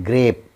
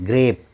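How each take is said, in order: Both takes have the same delivery.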